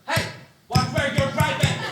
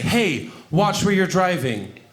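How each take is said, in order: First: It is said in a loud, animated voice. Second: It is said in a calm, even voice. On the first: How it was really said in the moment. "it was more like this" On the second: A toned-down retelling of the moment. "I didn't say it like that"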